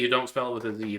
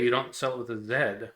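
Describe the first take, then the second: First: The final letter is pronounced as zee. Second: The final letter is pronounced differently, not zee. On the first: This is how people who say zee would put it. "we would spell the letter Z Z E E and say it Z" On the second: This is how people who spell with an S would put it. "They'd say"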